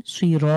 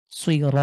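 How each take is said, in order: First: সুই র with a light, thin র; thin, front-tongue র in সুই র. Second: সুই র with thick, full-mouthed র; heavy r. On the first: Teacher contrasts light র for students. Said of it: "এটাকে যদি আমি পাতলা করে পড়ি". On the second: Teacher shows heavy র before the light take. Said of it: "সুই র ত একরকম শোনায়". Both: Shown as a demonstration.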